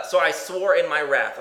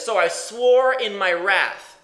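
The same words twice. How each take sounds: First: Said in the usual way. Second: Each word drawn out slowly and louder, weight on swore; slow emphatic quote. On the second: Shown as a demonstration. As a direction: lean hard on "swore", stretch "wrath" slowly. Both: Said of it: "He quotes that same account and says".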